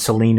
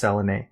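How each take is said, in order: First: The name is said in its common form. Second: The name is said in its Greek form. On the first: "Celine is the common pronunciation" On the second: "the Greek accurate is uh, pronunciation is Selene"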